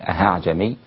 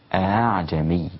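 First: The second glottal stop becomes a pure h sound. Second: The second glottal stop is softened, between stop and h. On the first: The speaker calls it wrong. "لا تصبح هاء خالصة فتقول أعجمي" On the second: The speaker calls it right. "أما إذا سهلت الهمزة الثانية فتقول أعجمي، وتكون الهمزة بين بين"

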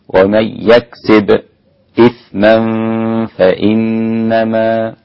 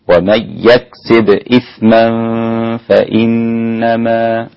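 First: A brief silent stop comes before 'ithman'. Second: The words run on with no stop before 'ithman'. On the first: "خلف له السكت على الساكن قبل الهمز" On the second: "وله وجه آخر عدم السكت"

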